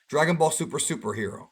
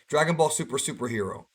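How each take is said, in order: No difference in how they are said.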